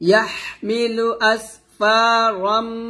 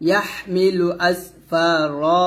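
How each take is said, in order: First: The word ends in a nasal 'm' joined onward. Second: The word ends in a stretched vowel, then stops. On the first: The reading continues without stopping. "তো আমি মিলা পড়ি" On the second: The reading stops at this point. "ওয়াকফ ধরে পড়ি তাহলে ইয়াহমিলু আসফারা রতে আমরা এক লিপ টান দিব"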